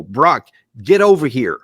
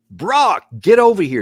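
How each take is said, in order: First: Said in the usual way. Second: Imitated yell. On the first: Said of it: "There's one phrase I want you to key in on". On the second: Commentator mimicking a bystander yelling for Brock, mock shout. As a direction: call out the name like someone yelling in the chaos. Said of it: "you hear Brock one more time screaming out".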